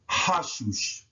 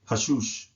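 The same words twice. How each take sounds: First: The word is said slowly and drawn out. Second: The word is said at a natural pace. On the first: It is slowed down so the sounds can be learned. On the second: It is the way the word is really said.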